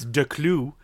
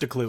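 First: The name is pronounced the French way. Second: The name is pronounced the English way. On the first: "Technically it's Declou. But I don't expect anybody to do the French pronunciation" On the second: "so just a clue is fine"

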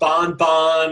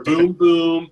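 First: The syllable has a nasal 'on' vowel. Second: The syllable has an 'oo' vowel closed by m. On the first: "It's not bon, bon" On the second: "or boom, boom"

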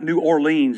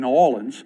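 First: The name is pronounced an outsider's way. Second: The name is pronounced the local way. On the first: The speaker is not from the area. The speaker calls it wrong. "not New Orleans. You say, you're not from around here, are you?" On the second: The speaker is from the area. The speaker calls it right. "That's the way you say it"

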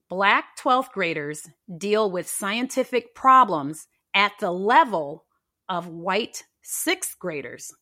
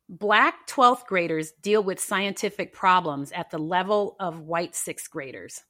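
First: It is said slowly. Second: It is said at normal speed.

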